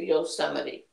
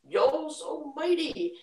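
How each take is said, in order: First: The syllables are run together into one word. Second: The three syllables are said as separate words.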